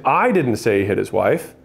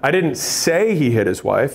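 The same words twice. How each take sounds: First: The word didn't is stressed. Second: The word say is stressed. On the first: The speaker denies saying it. "then it's like, I'm not saying that" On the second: Those were not the speaker's words. "is now saying that like, those weren't my words"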